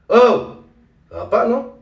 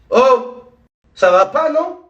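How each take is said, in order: First: The line is delivered too softly and calmly. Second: The line is delivered in a natural, conversational way. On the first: The speaker calls it wrong. "un peu trop doux, un peu trop calme" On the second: The speaker calls it right. "Celle-là, elle est bonne"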